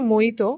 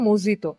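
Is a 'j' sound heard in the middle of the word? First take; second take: No; Yes. First: The word is said without a 'j' sound. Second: The word is said with a 'j' sound. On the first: "এই যে মইতো" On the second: "ওরা এখানে উচ্চারণ করছে মজিতো"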